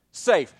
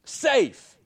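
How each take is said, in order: First: Said in the usual way. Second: Safe. called out high and drawn out; emphatic answer. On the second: Shown as a demonstration. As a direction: land the word Safe. high and long.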